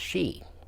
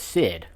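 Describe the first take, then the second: First: It starts with 'sh' and has no final 'd'. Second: It starts with 's' and ends with 'd'. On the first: The speaker calls it right. "it's actually pronounced she" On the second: The speaker calls it wrong. "I was pronouncing it in my head the Sid for a long time"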